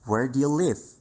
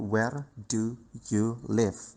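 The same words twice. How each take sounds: First: The words run together smoothly as connected speech. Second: Each word is said separately and distinctly. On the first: "bagaimana cara menggabungkan itu. Seperti ini" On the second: "Biasanya kita akan membacanya seperti"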